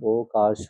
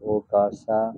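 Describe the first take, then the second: First: The word ends in a sh consonant. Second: The word ends in an a vowel. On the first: The speaker calls it wrong. "ও কাশ যেটা আছে" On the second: The speaker calls it right.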